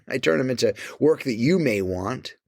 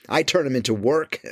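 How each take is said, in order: First: With a laugh through it; amused repeat. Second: Said in the usual way. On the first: Shown as a demonstration. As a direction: chuckle as you say it. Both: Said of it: "I turn 'em into work".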